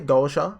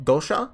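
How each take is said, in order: First: The ending is pronounced as 'sha'. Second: The ending is pronounced as 'sha'.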